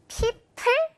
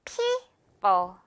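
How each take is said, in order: First: People broken into pee-pull, both p's puffed; wrong aspirated p. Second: People as a long pee and a falling, airless bo; light second p. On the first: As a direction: blow hard on each p in people. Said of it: "열심히 다 프, 프 소리 안 나고요". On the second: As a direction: stress the first syllable of people, lighten the second. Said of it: "뒷부분 가볍습니다". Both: Shown as a demonstration.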